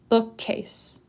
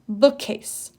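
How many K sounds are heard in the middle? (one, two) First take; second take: one; one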